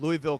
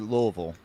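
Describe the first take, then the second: First: It is said the standard, non-local way. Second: It is said in the local Louisville drawl.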